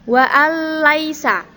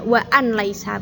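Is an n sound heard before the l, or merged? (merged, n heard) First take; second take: merged; n heard. First: The n merges into a doubled l, no nasal. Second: The n sound is pronounced before the l. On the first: The speaker calls it right. "dilebur huruf lam tanpa dengung" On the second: The speaker calls it wrong. "Kenapa tidak wa an laisa"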